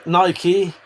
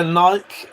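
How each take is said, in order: First: Nike as NY-kee; Nike in two syllables, ending kee; Nike pronunciation variant. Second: Nike as one syllable; Nike with a silent E; Nike pronunciation variant. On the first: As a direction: say Nike to rhyme with spiky. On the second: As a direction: say Nike to rhyme with bike. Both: Shown as a demonstration. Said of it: "Think we say it the same".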